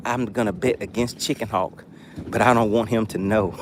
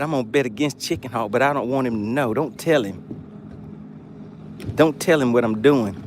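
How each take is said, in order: First: Secretive quote. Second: Hushed secret. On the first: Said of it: "He sent me a private text and said". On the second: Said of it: "He said". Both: Retold or imitated.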